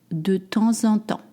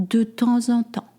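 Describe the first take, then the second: Both takes have the same delivery.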